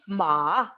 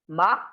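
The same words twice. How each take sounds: First: The pitch falls low, then rises again. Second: The pitch rises steadily through the syllable. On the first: "it's falling and rising. It is like dipping. It's low dipping" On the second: "one is rising pitch"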